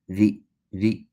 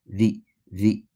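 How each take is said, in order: No difference in how they are said.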